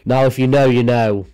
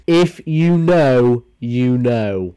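First: Said in the usual way. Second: IF stretched slowly and louder, "If you know" drawn out; milk the line "If you know" slowly and knowingly; dramatic slow repeat. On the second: Shown as a demonstration.

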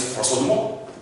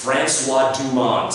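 First: "François Dumont" run together, silent final t; French pronunciation. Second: "Francois Dumont" slowly, sounding the final n and t; anglicised pronunciation. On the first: Student introducing himself as "François Dumont", native French pronunciation. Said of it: "your mom understands what that means". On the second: Teacher making "Francois Dumont" memorable, slow English pronunciation. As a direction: say "Francois Dumont" as English FRAN-swah DOO-mont. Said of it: "hard for a French person". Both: Shown as a demonstration.

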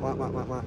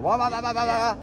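First: Low, soft engine wah-wahs; imitated uneven throttle. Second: High-pitched engine wah-wahs; imitated over-revving engine. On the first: Coach to rider on inconsistent throttle, low engine imitation. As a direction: mimic a throttle going on and off. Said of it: "staying consistent with that throttle. Not". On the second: Coach urging a shift up, high revving imitation. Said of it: "grab another gear. You're".

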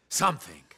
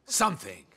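First: Scornful echo. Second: Said in the usual way. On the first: Acted. Scornful lower repeat.

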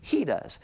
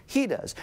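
First: Said in the usual way. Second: "He does" again higher, with weight on "He"; emphatic repeat. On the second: Shown as a demonstration. Preacher affirming to the congregation, emphatic. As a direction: land "He does" as a firm declaration. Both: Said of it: "Who commands all of creation?".

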